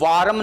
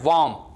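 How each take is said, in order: First: An r is sounded, with an extra vowel. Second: No r is sounded; the vowel is long. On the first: The speaker calls it wrong. "इसको वारम नहीं पढ़ना है" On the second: The speaker calls it right. "वाम पढ़ना है"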